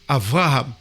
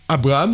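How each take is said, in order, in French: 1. La consonne du milieu est un son V. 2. La consonne du milieu est un son B. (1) "Ils vont dire Avraham" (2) "ils ne vont pas dire Abraham. Ils ne vont pas prononcer un B"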